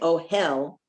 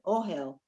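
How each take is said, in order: First: The stress is on the second syllable. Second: The stress is on the first syllable. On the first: The speaker calls it wrong. "don't say oh hell" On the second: The speaker calls it right. "You have to give the uh, emphasis on the first word"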